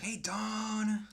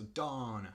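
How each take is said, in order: First: High, loud call with a long stretched Dawn; much higher, loud playful yell; shouting back. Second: "Dawn" with a drawn-out open "ah" and a falling tune; a milder demo of the "Dawn" call, not shouted; stress on Dawn. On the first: Retold or imitated. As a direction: yell the greeting across the lot. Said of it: "And I would shout back". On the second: Shown as a demonstration. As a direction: lean on the vowel of "Dawn", then let it fall. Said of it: "that's how she would say her name".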